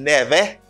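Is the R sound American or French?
French. The R is a French R. The speaker calls it wrong. "Pas dim never"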